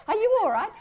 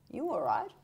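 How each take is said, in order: First: Squeaky, much higher and louder worried Aussie coworker; a bemused colleague checking you're okay, pitched way up; high mock concern. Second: Said in the usual way. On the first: Australian coworker puzzled by the put-on voice, high mock concern. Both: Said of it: "they'd say".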